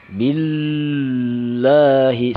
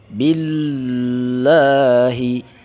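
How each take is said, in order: Both takes have the same delivery.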